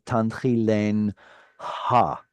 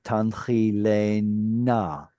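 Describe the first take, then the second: First: The h sound is kept as its own syllable. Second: The h sound merges into the preceding n. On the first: This is the original form. "instead of" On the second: This is the later assimilated form. "the hey is back assimilating into your noon"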